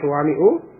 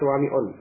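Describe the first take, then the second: First: The word ends in a bare 'u' vowel. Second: The word ends in an 'un' sound. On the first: The speaker calls it right. "suwami'u tidak ditanwin" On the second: The speaker calls it wrong. "tidak suwami'un"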